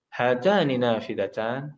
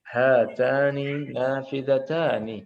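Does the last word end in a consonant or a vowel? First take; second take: consonant; vowel. First: The last word ends without its final vowel. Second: The last word ends with a final vowel. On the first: "tinggal disukunkan yang terakhir" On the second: "kita praktek tadi"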